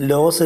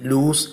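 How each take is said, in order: First: ലോസ് said with a short o, like loss; mock the wrong reading ലോസ், short o; common mispronunciation. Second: ലൂസ് said as "looz", long oo like lose; ലൂസ് pronounced loose-like "looz", never "los"; correct pronunciation. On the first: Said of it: "ലോസ് എന്ന് വായിക്കുന്നവരുണ്ട്". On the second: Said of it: "ലൂസ് എന്നാണ് വായിക്കേണ്ടത്". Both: Shown as a demonstration.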